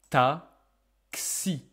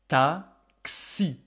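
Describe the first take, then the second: Both takes have the same delivery.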